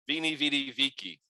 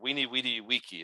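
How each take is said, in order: First: Each word starts with a v sound. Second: Each word starts with a w sound.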